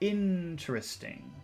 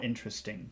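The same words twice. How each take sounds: First: The word is emphasized, its first part stretched. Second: The word is said plainly without extra emphasis. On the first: "Focus, ... make the N longer" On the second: "So normal"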